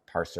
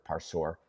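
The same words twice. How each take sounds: First: "Parser" with a reduced, unstressed "-ser" ending; first pronunciation option. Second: "Parsour" with a full "-sore" ending; alternative pronunciation. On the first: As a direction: say "Parser" to rhyme its ending with "sir". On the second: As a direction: say "Parsour" as "par-SOR", softly. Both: Shown as a demonstration. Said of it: "however you pronounce it".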